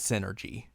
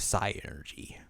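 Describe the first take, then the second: First: The word starts with a 'sin' sound. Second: The word starts with a 'sigh' sound. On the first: "it's definitely synergy" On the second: "say it was psi energy ... Like psychic energy"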